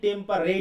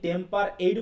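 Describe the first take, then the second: First: The r is joined to the last syllable 'rate'. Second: The last syllable is said apart as 'ate'. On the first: "নাকি টেম্পার রেট" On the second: "আমরা কি টেম্পার এইট বলবো"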